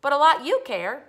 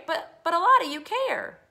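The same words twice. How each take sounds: First: "you" punched in a loud retort; stress on YOU. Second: "lot" punched high and loud; stress on LOT. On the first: Boy accuses his family, loud stress on "you". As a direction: throw the weight onto "you", loudly. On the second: Boy protests to family, loud stress on "lot". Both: Acted. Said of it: "Let me read that again".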